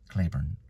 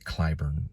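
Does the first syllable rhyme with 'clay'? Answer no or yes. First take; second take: yes; no. First: The first syllable rhymes with clay. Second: The first syllable does not rhyme with clay. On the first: "like rain, clay, Claiborne" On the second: "they pronounce it Clyburn"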